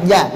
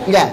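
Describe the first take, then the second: No difference in how they are said.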